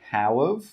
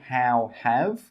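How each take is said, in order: First: The word 'have' is reduced to 'of'. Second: The word 'have' is pronounced in full. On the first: The speaker calls it right. "we say how of" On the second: The speaker calls it wrong. "We don't say how have"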